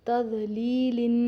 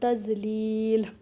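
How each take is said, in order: First: The word ends with an added 'in' sound. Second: The word stops without the 'in' ending.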